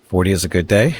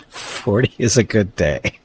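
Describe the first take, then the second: First: Said in the usual way. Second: Laughing through the words, slowed; giggling it out slowly. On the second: Real, not acted. Streamer repeating a chat joke while laughing.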